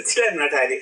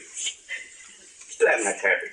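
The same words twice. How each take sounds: First: Said in the usual way. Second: Whispered. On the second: Acted. Repeated refrain, whispered slow take.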